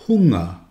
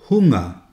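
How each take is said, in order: The two takes are said the same way.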